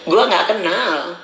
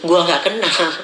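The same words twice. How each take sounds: First: Slow, said through a laugh. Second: Said in the usual way. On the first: Real, not acted. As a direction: chuckle while saying it slowly. (sambil tertawa, pelan)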